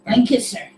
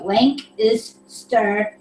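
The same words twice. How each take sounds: First: Lancaster run together quickly as "Lankister"; said fast. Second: "Lank is stir" in three slow separate pieces; slow syllables. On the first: Trying the guide at speed, Lancaster said fast. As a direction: blend Lancaster into one quick word. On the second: Practicing a pronunciation guide, slow and separated. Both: Shown as a demonstration. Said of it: "but say it fast".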